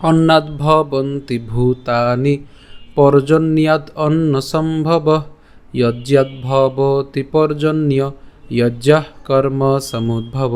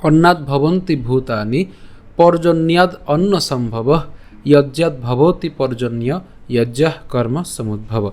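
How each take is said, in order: First: Very slow chant with each word drawn out; chanting the Gita verse melodically for the class; chanted with a tune. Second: Slow, even spoken recitation of the verse, no tune. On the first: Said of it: "তা আমরা যদি সুর করে পাঠ করি". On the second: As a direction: say each line slowly and plainly. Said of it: "আমি আবার বলছি". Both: Shown as a demonstration.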